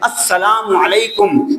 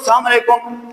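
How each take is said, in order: First: Every syllable of the greeting is pronounced fully. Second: The greeting is shortened and slurred together. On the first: The speaker calls it right. "सही तरीका क्या है?" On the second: The speaker calls it wrong. "अब पता नहीं क्या कह रहा है"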